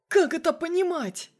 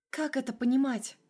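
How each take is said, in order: First: Much higher and louder angry demand; furious demand. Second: Said in the usual way. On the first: A narrator's reading. Colonel demands explanation on the phone, furious. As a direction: demand an answer, raging. Colonel, then Masha repeats.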